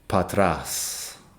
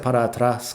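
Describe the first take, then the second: First: The phrase is shortened into two syllables. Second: The phrase is said with every syllable. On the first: It is the normal casual way to say it. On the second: It sounds more educated.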